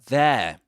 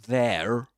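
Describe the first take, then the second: First: The final r sound is dropped. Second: The final r sound is pronounced. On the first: "he doesn't pronounce the final r at the end of there" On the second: "He doesn't he doesn't say there"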